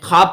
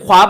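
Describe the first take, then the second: First: No w sound is pronounced after the kh. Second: A w sound is pronounced after the kh. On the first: The speaker calls it right. "ख्वाब पढ़ते हैं। ये वाव का pronunciation नहीं हो रहा है" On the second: The speaker calls it wrong. "ख्वाब नहीं पढ़ते हैं"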